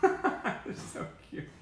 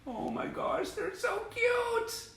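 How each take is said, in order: First: Slow, high coo through a laugh. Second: Cooing. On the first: Fan giggling over baby pictures, high and slow. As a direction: giggle while gushing. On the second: Fan cooing at baby shots, very high and slow. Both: Real, not acted.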